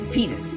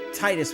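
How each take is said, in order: First: The first vowel is an 'ee' sound. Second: The first vowel is a long 'eye' sound. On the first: "But if you play Kingdom Hearts, uh, Waka says Titus" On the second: "I always say Titus with a, a hard I as well"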